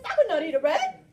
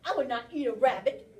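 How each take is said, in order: First: Much louder, hitting "would" hard; emphatic denial. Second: Louder, stressing "I would not"; firm denial that gives him away; guilty denial. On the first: Teacher revealing the clue to the class: loud emphatic denial. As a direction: bang the denial home. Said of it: "He says". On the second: Teacher rereading the bear's words to the class: loud insistent denial. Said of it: "And then he says". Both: Acted.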